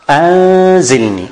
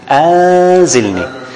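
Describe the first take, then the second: No difference in how they are said.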